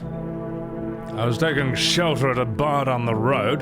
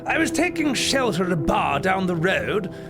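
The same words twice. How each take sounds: First: An extremely low, deep voice. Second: A nasal, snooty British voice. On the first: "I gotta drop all the way down for this one" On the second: "A nasally, snooty British man"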